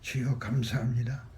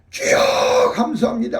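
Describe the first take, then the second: First: It is said quietly, almost to oneself. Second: It is said loudly, nearly shouted.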